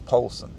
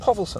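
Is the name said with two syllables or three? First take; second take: two; three. First: The name has no middle syllable or v sound. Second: The name has a middle syllable with a v sound. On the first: This is how the speaker assumed it was said. "I had assumed Polson" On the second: This is how the news reporters said it. "every reporter said Povelson"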